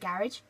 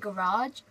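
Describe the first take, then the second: First: It is said in a British accent. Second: It is said in an American accent. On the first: "we say garage" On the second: "they say garage"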